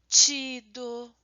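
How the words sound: The t before i is softened, Brazilian style. "A gente sonoriza a palavra"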